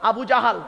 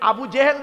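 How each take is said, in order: First: The second word is said with 'a' vowels, 'jahal'. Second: The second word is said with 'e' vowels, 'jehel'. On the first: The speaker calls it right. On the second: The speaker calls it wrong. "Abu জেহেল নয় শব্দটা"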